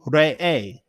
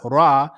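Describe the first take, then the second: First: The name is said as Re'e. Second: The name is said as Ra. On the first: The speaker calls it right. "Re'e is the correct enunciation of that" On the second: The speaker calls it wrong. "It's not Ra"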